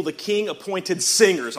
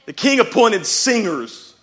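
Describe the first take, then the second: First: Said in the usual way. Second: "singers" punched high and loud; stress on singers. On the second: Real, not acted. Preacher re-reading the verse in delight, loud stress on "singers". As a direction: hit the word "singers" hard, raised and loud.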